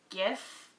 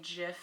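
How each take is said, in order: First: It begins with a hard G sound. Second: It begins with a soft J sound. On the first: "I know it's supposed to be GIF, like gift without the T" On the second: "but I just say GIF"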